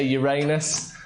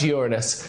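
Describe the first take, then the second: First: Uranus with stressed middle syllable "ray"; Uranus as your-anus. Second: Uranus stressed on the first syllable; Uranus as YOOR-uh-nus. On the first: Host warns off the rude version, Uranus as "your-AY-nus". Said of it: "it sounds like anus". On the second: Host corrects the planet's name, Uranus as "YOOR-uh-nus". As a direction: say Uranus so it starts like "urine". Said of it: "it's pronounced Uranus". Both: Shown as a demonstration.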